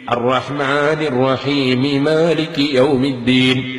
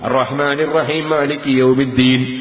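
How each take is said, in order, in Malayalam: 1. rahim-ലെ m ന് ശേഷം i സ്വരം വരുന്നു. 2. rahim-ലെ m സ്വരമില്ലാതെ തുടരുന്നു. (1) "മീമിനെ കസറ് ചെയ്തിട്ട് മാലികി യൗമിദ്ദീൻ എന്ന് എടുത്തു ഓതണം" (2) "ഒരു മീമ് നഷ്ടപ്പെട്ടു പോയി, നിസ്കാരം ബാത്തിലായി പോയി"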